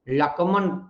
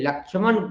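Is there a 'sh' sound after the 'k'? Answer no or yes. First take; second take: no; yes. First: No 'sh' sound follows the 'k'. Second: A 'sh' sound follows the 'k'.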